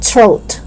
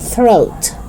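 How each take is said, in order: First: It begins without a voiceless th sound. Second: It begins with a voiceless th sound. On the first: The speaker calls it wrong. "It's not throat" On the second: The speaker calls it right. "It's throat"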